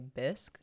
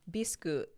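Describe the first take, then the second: First: The word ends with a bare k consonant. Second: The word ends with an added vowel sound. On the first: This is how it is said in the U.S. "here in the U.S., you would say bisque" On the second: This is how it is said in Japanese. "the Japanese pronunciation would be Bisque, Bisku"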